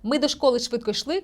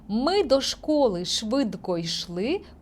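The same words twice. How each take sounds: First: The line is read at a fast pace. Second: The line is read at a slow pace. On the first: "Читаємо швидко" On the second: "Читаю повільно"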